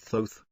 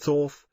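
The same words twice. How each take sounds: First: The name is said with a long O. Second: The name is said with a short O. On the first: This is how the bearer of the name says it. The speaker calls it right. "he pronounces it Thoth" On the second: This is how some other people say it. The speaker calls it wrong. "Someday people say Thoth"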